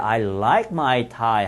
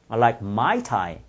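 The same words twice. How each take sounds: First: The stress is on like. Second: The stress is on my.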